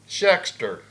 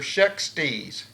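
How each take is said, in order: First: The name ends with an 'er' sound. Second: The name ends with an 'eez' sound. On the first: The speaker calls it wrong. "or not Shexter" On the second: The speaker calls it right. "Shextees is how I'm going to pronounce that"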